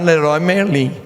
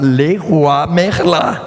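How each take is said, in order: First: The name is said with Brazilian Portuguese sounds. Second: The name is said with French sounds. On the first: The speaker calls it wrong. "Você não vai na Leroy Merlin" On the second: The speaker calls it right. "você vai na Leroy Merlin"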